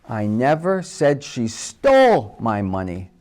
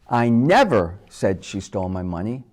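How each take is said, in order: First: The stress is on the word stole. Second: The stress is on the word never.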